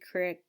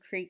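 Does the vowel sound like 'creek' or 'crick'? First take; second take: crick; creek. First: The word is said with a short 'i' vowel. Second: The word is said with a long 'ee' vowel.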